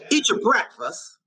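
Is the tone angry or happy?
angry. It is said in an angry tone.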